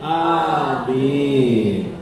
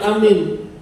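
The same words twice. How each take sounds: First: The first vowel is said long. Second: The first vowel is said short. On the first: The speaker calls it right. "tapi alifnya panjang" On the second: The speaker calls it wrong. "Jangan mengucapkan amin"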